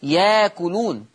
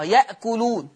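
First: Slow ياكلون with long aa and no glottal catch; hamza turned to alif. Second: يأكلون with a still hamza before the k; hamza pronounced. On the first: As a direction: stretch the first vowel of ياكلون in place of hamza. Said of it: "تخلينا أجيب ألف". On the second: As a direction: say يأكلون with a glottal catch after ya. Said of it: "هنزل بقى على الكلمة اللي تخصها". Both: Shown as a demonstration.

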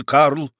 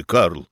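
First: «Карл» твёрдо и чуть громче; «Карл» жёстко, ставя точку; решительно. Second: «Карл» мягко, тише, с нисходящим тоном; «Карл» нежно, успокаивающе, с падением в конце; ласково. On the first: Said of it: "решительно произнёс бургомистр". (бургомистр решительно останавливает барона: «Карл» твёрдо) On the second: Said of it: "ласково вмешался бургомистр". (бургомистр ласково обращается к барону: «Карл» тихо и мягко) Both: A narrator's reading.

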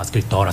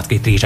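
First: Scrittora said softly, the made-up form; wrong word. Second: Scrittrice said properly, accepting the correction; corrected word. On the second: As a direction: give scrittrice its full form. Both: Shown as a demonstration.

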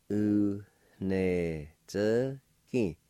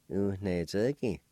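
First: U, ne, ze, ki each set apart; nasalized N, syllable by syllable. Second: Said in the usual way. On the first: Shown as a demonstration. Teacher repeats number three for learners, syllable by syllable. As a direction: sound out U, ne, ze, ki slowly with nasalized N. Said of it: "the N sound will be nasalized". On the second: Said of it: "I'll pronounce these words".

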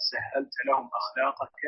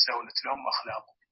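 First: "سهلت" said sahhalta, doubled h and ending in -ta; corrected vowelling. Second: "سهلت" said sahulat, single h with u, ending in -at; uncorrected vowelling. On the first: Student rereading after the teacher's correction, "سهلت" now sahhalta. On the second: Student telling the teacher what their copy has, "سهلت" read sahulat. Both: Shown as a demonstration. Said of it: "عندي سهلت لهم أخلاقك".

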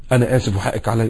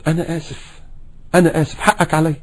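First: Soft sincere apology to wife; quiet heartfelt apology; gentle apology. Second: Soft sincere apology; a husband apologizing softly to his wife; gentle apology. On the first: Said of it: "لما بغلط في زوجتي". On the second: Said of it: "يا ريت لما نغلط". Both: Shown as a demonstration. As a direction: say sorry tenderly.

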